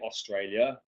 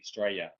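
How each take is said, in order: First: Every syllable of the word is said clearly. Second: The word is shortened with syllables run together. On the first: "we don't say Australia" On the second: "We're a bit lazy"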